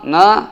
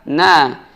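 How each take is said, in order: First: The syllable na sounds thick and heavy. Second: The syllable na sounds thin and open. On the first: The speaker calls it wrong. "menebalkan huruf nun terbawa dengan huruf shad" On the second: The speaker calls it right. "dibuka rahangnya dengan berharokat fathah"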